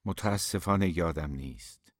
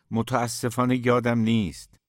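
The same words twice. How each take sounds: First: Choked, downcast voice. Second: Said in the usual way. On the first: A narrator's reading. Aydin admitting he forgot the poem, choked voice. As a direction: say it with a heavy, downcast catch.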